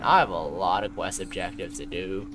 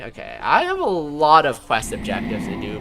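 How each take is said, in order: First: Lower, softer, worn-out voice; tired suffering voice. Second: Said in the usual way. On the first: Shown as a demonstration. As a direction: say it like you're exhausted. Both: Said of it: "the tired, suffering voice".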